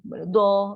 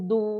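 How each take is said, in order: First: The consonant is followed by an a vowel. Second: The consonant is followed by a u vowel. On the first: "pada teks saya nampak macam ni" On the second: "dia boleh baca du, du, du pun boleh"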